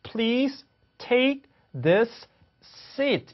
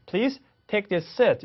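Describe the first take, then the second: First: "Please take this seat" very slow, high, word by word; separated words. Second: "Please take this seat" in one run, one S; linked words. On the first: Teacher showing what can't be done, "Please take this seat" broken up. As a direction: keep both S sounds in "this seat", with gaps. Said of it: "이렇게 할 수 없어요". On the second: Teacher showing how it should go, "this seat" linked. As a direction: merge the S sounds in "this seat", no gaps. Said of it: "이렇게 가야 되겠죠". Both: Shown as a demonstration.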